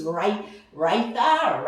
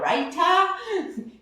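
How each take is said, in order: First: Raitha said slowly, stumbling toward raita; first try at raita. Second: Raita landed higher, with a confident lift; settled pronunciation. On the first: Host unsure of pronunciation, slowly sounding out Raitha. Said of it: "I'm not sure how you can properly pronounce it". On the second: Host settling on Raita for viewers, high and sure. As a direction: say Raita with a bright high finish. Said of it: "The Indians will tell me that's not how you say it". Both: Shown as a demonstration.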